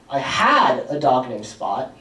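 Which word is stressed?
had. The word 'had' carries the main stress. I no longer have the dog. "I don't have Spot anymore"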